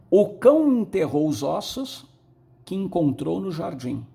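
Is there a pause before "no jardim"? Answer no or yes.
no. It flows without a pause before no jardim.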